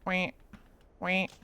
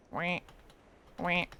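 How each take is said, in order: Both takes have the same delivery.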